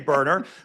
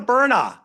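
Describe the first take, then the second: First: The final r sound is clearly pronounced. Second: The final r sound is dropped, Boston-style. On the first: "we don't say burner" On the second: "in Boston, we kind of have an accent here"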